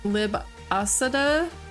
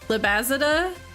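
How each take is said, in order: First: The middle consonant is a hissing S sound. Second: The middle consonant is a buzzing Z sound. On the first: "The X would make an S sound?" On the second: "I meant Z"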